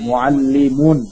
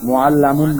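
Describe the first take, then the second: First: The vowel after the doubled L is 'i'. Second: The vowel after the doubled L is 'a'. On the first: The speaker calls it right. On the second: The speaker calls it wrong. "অনেকে মুআল্লামুন করবে, মুআল্লামুন না"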